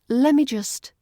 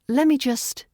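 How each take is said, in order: First: The t sound in let is dropped. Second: The same.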